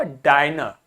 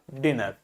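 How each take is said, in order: First: "डाइनर" with a long i, like "eye"; long vowel. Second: "डिनर" with a short i in the first syllable; short vowel. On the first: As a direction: open the first syllable of "डाइनर" into a drawn डाइ. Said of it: "I is pronounced as a long vowel". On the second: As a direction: say "डिनर" low and soft with a quick डि. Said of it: "it is pronounced as a short vowel". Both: Shown as a demonstration.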